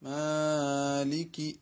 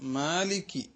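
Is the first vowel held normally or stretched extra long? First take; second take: extra long; normal. First: The first vowel is stretched much longer than usual. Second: The first vowel has its normal length. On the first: The speaker calls it wrong. "ആ നീട്ടൽ ശരിയല്ല" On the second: The speaker calls it right. "മാലികി എന്ന് മാത്രം പറയുക"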